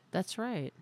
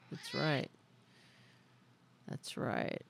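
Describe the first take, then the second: First: Said in the usual way. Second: Whispered, breathy echo. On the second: Pretend. Repeating it to the chat as a fading whisper. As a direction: breathe the words out like a soft echo. Echoing the same phrase, fading out.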